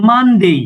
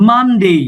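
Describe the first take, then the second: The two takes are said the same way.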